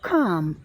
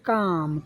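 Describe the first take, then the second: First: The first consonant has a strong puff of air. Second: The first consonant is plain, without a puff of air. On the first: "जैसे ही यहाँ हम आ गए ख आ म" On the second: "हम इसको यहाँ पढ़ेंगे काम"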